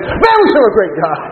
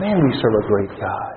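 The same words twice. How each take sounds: First: It is said excitedly, with a raised voice. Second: It is said flatly, without excitement.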